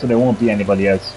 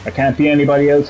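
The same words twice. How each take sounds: First: "won't" leaned on firmly, a bit quicker; quick, firm, weight on "won't"; stress on WON'T. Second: Said in the usual way. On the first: Real, not acted. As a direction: hit the word "won't" as a refusal.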